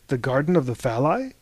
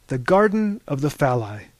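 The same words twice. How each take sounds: First: Phalli raised into a rising question; puzzled echo. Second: Said in the usual way. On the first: A narrator's reading. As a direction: echo it back in disbelief. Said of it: "echoed Harvey".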